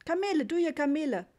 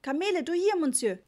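First: Urgent, higher and louder hawking; insistent trader. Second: Even louder, pushier hawking; insistent trader. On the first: Trader insistently pushes Papa toward the camels. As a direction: press the tourist, don't let go. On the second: Trader repeats his pitch at Papa, more insistent. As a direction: push harder, hand held out. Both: A narrator's reading. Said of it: "sagte der Mann eindringlich".

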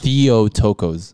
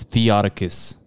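First: Theotokos as thee-oh-TOH-kohs, slow, falling at the end; corrected pronunciation. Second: Theotokos as thee-AH-tuh-kus, short weak vowels; botched pronunciation. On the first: Host repeats the corrected title back, slow Theotokos as thee-oh-TOH-kohs. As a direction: draw out Theotokos with full long O's. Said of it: "How do you pronounce it". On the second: Host admits botching the film title, mispronounced Theotokos as thee-AH-tuh-kus. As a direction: say Theotokos slowly with a short AH and reduced endings. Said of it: "I always botch this". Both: Shown as a demonstration.

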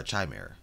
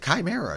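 First: "Chimera" said with CH as in chime; "Chimera" pronounced chai-MERA; soft CH Chimera. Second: "Chimera" said with a hard K, ky-MERA; "Chimera" pronounced kai-MERA. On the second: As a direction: start "Chimera" with a K sound. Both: Shown as a demonstration. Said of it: "Is it Chimera or Chimera?".

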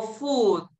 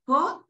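First: "food" with a long, tight oo; "food" with lips rounded tight, vowel held; closed U. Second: "food" with a short, loose oo; "food" with the lax, less closed U; less closed vowel. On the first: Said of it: "dónde cierro más". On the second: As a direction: say "food" wrongly, vowel as in "foot". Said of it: "que no es tan cerrada". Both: Shown as a demonstration.

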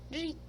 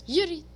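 First: Said in the usual way. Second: Impatient order. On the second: Real, not acted. Gamer pushing his character to walk, impatient. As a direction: shove the words out impatiently.

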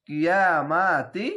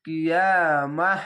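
First: Slow "কিয়ামাতি" with long aa, ending on short ti; non-stop ti ending. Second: Slow "কিয়ামাহ", long vowel, ending in a breathed h; pausal h ending. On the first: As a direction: stretch "কিয়ামাতি" and sound the final ti. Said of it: "না থামলে". ("কিয়ামাতি" না থেমে তি দিয়ে) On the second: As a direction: stretch "কিয়ামাহ" and stop on h. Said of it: "একে হা কেন পড়লাম". ("কিয়ামাহ" থেমে হা দিয়ে) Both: Shown as a demonstration.

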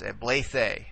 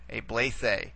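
First: Blethe said slowly and carefully, syllable by syllable; teacher modelling blethe slowly; slow model pronunciation. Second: Blethe said once more at normal speed, falling at the end; teacher repeating blethe at normal pace; quick repeat of the word. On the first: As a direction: spell out blethe slowly for the class. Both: Shown as a demonstration. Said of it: "to the second eta".

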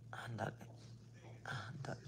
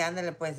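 First: Softly whispered mocking goodbye; a dry, unvoiced brush-off. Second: Said in the usual way. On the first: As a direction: breathe it out dismissively. Mocking her own curt goodbye.

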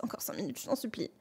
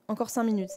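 First: Very soft, low mumbled begging; sleepy morning plea. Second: Said in the usual way. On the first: Acted. Parent woken by their child, soft sleepy pleading. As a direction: beg quietly for more sleep. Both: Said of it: "Ça, c'est moi tous les matins".

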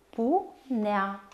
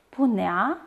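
First: "punea" split in two: pu, nea; despărțit în silabe. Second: Said in the usual way. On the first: Shown as a demonstration. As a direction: pause between the syllables of "punea". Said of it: "se desparte astfel". (rostit pe silabe, cu pauză) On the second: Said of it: "Desparte în silabe cuvintele".

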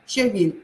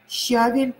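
First: Щавель stressed on «вель»; щавель with a strong Е. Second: Щавель stressed on «ща»; Щавель with a strong А, weak ending. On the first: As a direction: hit the last syllable of щавель. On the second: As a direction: hit the first syllable of Щавель. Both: Shown as a demonstration. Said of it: "А или Е".

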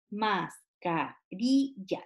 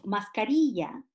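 First: "mascarilla" split slowly into mas, ca, ri, lla; syllable by syllable. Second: Said in the usual way. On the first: Shown as a demonstration. Teacher breaking a word up for children, syllable by syllable. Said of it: "marque la sílaba tónica". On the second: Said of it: "si yo digo mascarilla".

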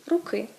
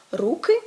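First: "руки" stressed on the last syllable, ру-КИ. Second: "руки" stressed on the first syllable, РУ-ки. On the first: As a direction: push the stress onto КИ in "руки". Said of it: "руки — родовий однини". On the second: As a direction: lean on РУ in "руки". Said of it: "руки — множина називний". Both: Shown as a demonstration.

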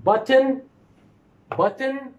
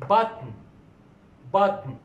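First: Button said high, the t and vowel both clear; button, each sound spelled out; careful demo. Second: Button with a falling tune, the n carrying the syllable; button, no vowel before the n; syllabic n. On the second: Teacher models the reduced form for students. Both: Shown as a demonstration. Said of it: "look up at these two pronunciations".

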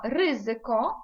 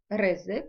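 First: "ризико" stressed on the first syllable, RY; exceptional Polish stress. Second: Said in the usual way. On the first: Shown as a demonstration. Teacher setting Polish word beside the familiar one, first-syllable stress. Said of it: "не згідно правил розставляються".

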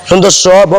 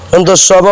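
Both takes have the same delivery.

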